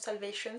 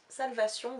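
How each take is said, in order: First: It is pronounced with English sounds. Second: It is pronounced with French sounds. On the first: The speaker calls it right. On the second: The speaker calls it wrong.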